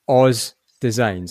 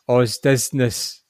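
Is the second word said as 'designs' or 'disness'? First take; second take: designs; disness. First: The second word is said as 'designs'. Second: The second word is said as 'disness'. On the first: The speaker calls it right. "it just says Oz Designs" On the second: The speaker calls it wrong. "Pete was reading that as if it was Oz Disness"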